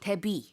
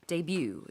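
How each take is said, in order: First: It is said the way Koreans pronounce it. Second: It is said the way English speakers pronounce it. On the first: "for sure how it's pronounced in Korea" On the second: "영어식으로 할 때는 debut 이렇게 발음을 하고요"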